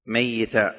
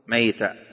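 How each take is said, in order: First: "ميتا" with a doubled ya carrying kasra, mayyitan. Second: "ميتا" with a still, single ya, maytan; sukun on ya. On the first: Teacher shows Abu Ja'far's reading, "ميتا" with doubled ya. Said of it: "بكسر وتشديد الياء". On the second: Teacher shows the other readers' "ميتا" with sukun on ya. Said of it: "والباقون بالسكون". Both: Shown as a demonstration.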